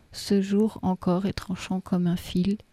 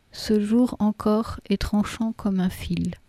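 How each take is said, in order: The two takes are said the same way.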